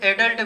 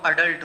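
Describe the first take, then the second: First: The word begins with an 'eh' vowel. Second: The word begins with an 'uh' vowel. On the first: The speaker calls it wrong. "Pronunciation जो है एडल्ट भी बोल देते हैं" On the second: The speaker calls it right. "शुद्ध जो होता है वो अडल्ट होता है"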